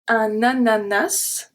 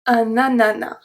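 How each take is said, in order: First: The final S sound is pronounced. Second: The final S sound is left silent. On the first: "sometimes we're going to pronounce the S at the end" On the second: "sometimes we are not going to pronounce it"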